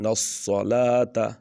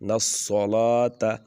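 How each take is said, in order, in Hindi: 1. 's' ध्वनि मोटी और भारी है। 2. 's' ध्वनि मोटी और भारी है।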